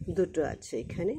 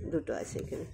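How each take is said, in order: First: Said in the usual way. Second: দুটো আছে এখানে whispered, much softer; quiet whispered aside; whispered repeat. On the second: Shown as a demonstration. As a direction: whisper it back to the class.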